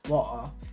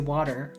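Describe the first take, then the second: First: It is said with a British accent. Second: It is said with an American accent.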